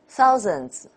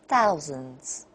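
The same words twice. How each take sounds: First: Both syllables have equal weight. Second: The first syllable is clearly stronger.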